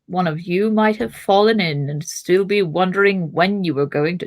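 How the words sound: It is read in the old wizard's character voice. The line is given to the wrong character. The speaker calls it wrong. "that's not Gandalf. I hate it when I do the wrong voice"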